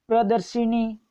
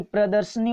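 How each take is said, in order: First: प्रदर्शिनी with "shi" before "ni"; i after sh. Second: प्रदर्शनी with "sha", not "shi"; no i after sh. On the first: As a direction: say प्रदर्शिनी as pra-dar-SHI-ni. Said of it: "प्रदर्शिनी नहीं होता". (प्रदर्शिनी में "शि" पर इ की मात्रा) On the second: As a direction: say प्रदर्शनी as pra-dar-sha-ni. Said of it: "प्रदर्शनी होता है". (प्रदर्शनी में "श" बिना इ के) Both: Shown as a demonstration.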